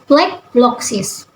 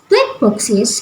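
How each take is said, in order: First: The second word begins with a 'bl' sound. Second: The second word begins with a plain 'b'. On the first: The speaker calls it wrong. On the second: The speaker calls it right.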